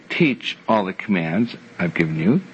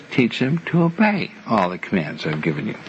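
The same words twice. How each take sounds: First: Said in the usual way. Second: Obey leaned on, rising toward the end; stress on obey. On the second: Shown as a demonstration. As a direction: hit the word obey to set it against the first version. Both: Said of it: "notice there's a difference".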